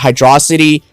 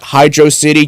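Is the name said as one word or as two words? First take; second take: one word; two words. First: Said as one word rhyming with velocity. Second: Said as two separate words, hydro and city. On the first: It makes a pun on velocity. The speaker calls it right. "just for the velocity pun" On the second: It is a plain city name. The speaker calls it wrong. "not Hydro City"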